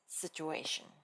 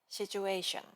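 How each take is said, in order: First: Said with an American accent and sharp friction. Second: Said with a Japanese accent and weak friction. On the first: The speaker calls it right. "lower your pitch and let the sound resonate deeply in your chest" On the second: The speaker calls it wrong. "the typical Japanese way without thinking"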